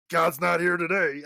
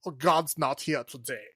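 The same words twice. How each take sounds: First: Mock Texas accent, louder; lightly done Texas accent on a German character. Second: Put-on German accent. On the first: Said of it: "like, a Texas accent". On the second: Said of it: "very German".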